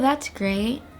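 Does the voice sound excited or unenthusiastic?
unenthusiastic. It is said flatly, without excitement. The listener does not share the happiness. The speaker calls it wrong. "why are you saying it like that?"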